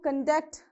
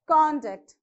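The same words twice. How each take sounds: First: The stress is on the second syllable. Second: The stress is on the first syllable. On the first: It is a verb. "so you have to stress on the second syllable" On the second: It is a noun. "You stress on this"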